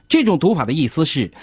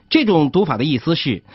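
Both takes have the same delivery.

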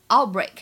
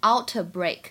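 First: The t is held, not released, before b. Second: The t is clearly released before b. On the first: The speaker calls it right. "它本身呢有一个完全失去爆破" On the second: The speaker calls it wrong. "不要读成outbreak，这样就不太好听了，不够连贯"

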